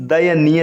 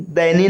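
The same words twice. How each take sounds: First: दयनीय said "da-ya-nee-ya"; correct full form. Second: दयनीय squeezed to "dainee"; wrong contracted form. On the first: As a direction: sound every syllable of दयनीय. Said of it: "लिखा जाता है". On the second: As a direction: run दयनीय into two syllables, "dai-nee". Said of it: "नहीं". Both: Shown as a demonstration.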